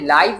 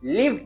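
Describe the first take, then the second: First: The vowel is a long 'eye' sound. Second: The vowel is a short 'ih' sound. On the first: The speaker calls it wrong. "आपने लाइव नहीं पढ़ना" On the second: The speaker calls it right. "बल्कि लिव पढ़ना है"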